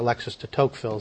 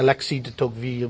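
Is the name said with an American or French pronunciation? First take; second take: American; French. First: The name is said with an American pronunciation. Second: The name is said with a French pronunciation. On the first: "we say" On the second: "we don't say"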